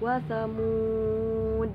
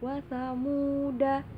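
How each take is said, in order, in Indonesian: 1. Kata itu berakhir pada d tanpa vokal. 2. Kata itu berakhir dengan vokal pendek a. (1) "disukun, sukun kalau ber, mau berhenti di situ" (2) "da-nya itu dibaca, tapi pendek"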